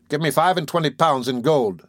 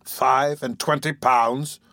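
First: Higher-pitched woman naming her price; composed, firm bargaining; firm demand. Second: Slow, incredulous exclamation; recoiling at the price, words stretched; taken aback. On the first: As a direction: state the sum firmly, as a bargainer. Woman firmly names her price. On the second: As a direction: draw the sum out in disbelief. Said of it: "exclaimed Monks, drawing back". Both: A narrator's reading.

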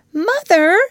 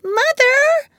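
First: High, loud call to mother; Wendy's cry. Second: Put-on very high, loud child's call; little boy's cry. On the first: Acted. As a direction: call out to reach her. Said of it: "Wendy cried". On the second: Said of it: "cried Michael".

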